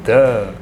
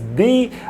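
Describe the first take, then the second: First: The vowel sounds like a short 'uh'. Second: The vowel sounds like a long 'ee'. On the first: It comes before a word starting with a consonant. "when it is followed by a consonant, we pronounce it, it as the" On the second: It comes before a word starting with a vowel. "If the article the is followed by a vowel, we pronounce it as the"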